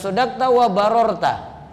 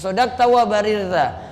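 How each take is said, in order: First: The last word has an o vowel in the middle. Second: The last word has an i vowel in the middle. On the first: The speaker calls it wrong. "bukan sodakta wa barorta" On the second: The speaker calls it right. "namun sodakta wa barirta"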